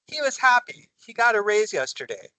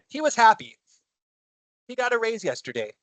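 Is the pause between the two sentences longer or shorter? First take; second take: shorter; longer. First: A shorter pause separates the two sentences. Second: A longer pause separates the two sentences. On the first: The two sentences are closely connected. The speaker calls it right. "I naturally take the pause a little shorter than I do with the period" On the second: The two sentences seem unconnected. The speaker calls it wrong. "choppy, doesn't it?"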